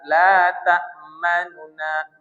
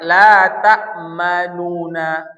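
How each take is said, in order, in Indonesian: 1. Vokal di antara dua bunyi n itu sangat pendek. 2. Vokal di antara dua bunyi n itu panjang penuh. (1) "Ini sepertiga" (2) "lengkap seratus persen baris dom dhammah"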